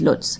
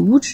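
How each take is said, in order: First: The name is pronounced as it is spelled. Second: The name is pronounced the Polish way. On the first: "les gens disent Lodz, parce que ça s'écrit L barré O D Z" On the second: "prononcé à la polonaise"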